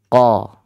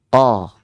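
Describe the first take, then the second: Both takes have the same delivery.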